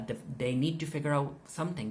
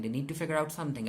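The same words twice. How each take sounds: First: Said in the usual way. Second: Quick rushed repeat; fast. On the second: Shown as a demonstration. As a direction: rattle it off fast. Repeats line, second time faster.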